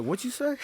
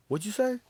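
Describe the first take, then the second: First: Squeaky high retold line; very high mock quote. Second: High mock quote. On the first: Same quote repeated, higher. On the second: Retelling TV scene, quoted line.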